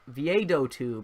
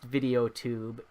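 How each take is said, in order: First: The first part sounds like vee-ah-doe. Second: The first part sounds like the word video. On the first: The speaker calls it right. "It's like pronounced Viado Viado Viado tube or something" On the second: The speaker calls it wrong. "it's not pronounced video tube"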